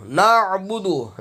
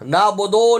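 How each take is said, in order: First: نعبد with a held throat ain, "na'-bu-du"; correct na'budu. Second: نعبدو as "naa-bo-doo", no ain; wrong na'budu. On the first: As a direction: catch the ain in نعبد, short "u" endings. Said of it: "نعبدو ہے". (نعبد، عین حلق سے) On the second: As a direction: misread نعبدو with open "o" vowels. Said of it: "نعبدو نہیں ہے". (نعبدو کو "نابودو" پڑھنا) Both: Shown as a demonstration.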